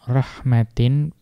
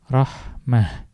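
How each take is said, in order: First: The word ends with a t and a nasal. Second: The word ends with an h sound. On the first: "walaupun belakangnya ta" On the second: "ketika diwaqaf dibaca rahmah"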